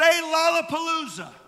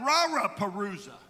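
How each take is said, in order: First: The word is said with clear L sounds. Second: The word is said with R sounds replacing L. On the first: The speaker calls it right. "say Lollapalooza" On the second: The speaker calls it wrong. "could not make the L sound. It would come out Raraparooza"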